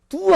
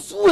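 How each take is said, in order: First: The word begins with a D sound. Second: The word begins with an S sound. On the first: This is the Korean way of saying it. "두 하면" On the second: This is how Japanese speakers say it. "수 해요"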